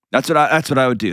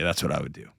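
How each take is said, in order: First: Said in the usual way. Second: Much softer, trailing off; quiet. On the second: Real, not acted. Host closing his advice, quietly. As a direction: let the conclusion sink to almost nothing.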